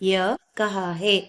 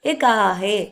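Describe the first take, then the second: First: The first word is said fully as 'ya'. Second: The first word is reduced to just 'e'.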